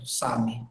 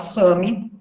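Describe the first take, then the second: First: The first vowel is an open a. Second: The first vowel is nasalized. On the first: It is the original pronunciation. The speaker calls it right. "o correto é, é o A aberto" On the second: It is easier for Portuguese speakers. The speaker calls it wrong. "com som anasalado"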